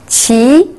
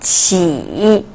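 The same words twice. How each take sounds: First: The pitch rises from mid to high. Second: The pitch dips low, then rises.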